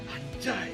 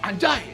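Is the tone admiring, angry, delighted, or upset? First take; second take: upset; angry. First: It sounds upset, as if hurt by a loss. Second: It sounds angry, as if shouting in rage.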